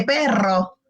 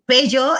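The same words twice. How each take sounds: First: "perro" with a clear trilled rr, low; correct "perro". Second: "pello" with a y sound instead of rolled rr; lisping child's "pello". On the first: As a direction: model the rolled rr in "perro". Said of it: "en vez de". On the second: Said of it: "Ahí que diga el niño". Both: Shown as a demonstration.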